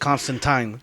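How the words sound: The name is said the British way. "he is a British character created by British people. His name is Constantine"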